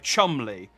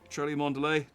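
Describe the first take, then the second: First: The name is said with only two syllables. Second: The name is sounded out with many syllables. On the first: The speaker calls it right. "All three of these words are only two syllables" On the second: The speaker calls it wrong. "based on how it's written, that is how you would imagine it would be pronounced"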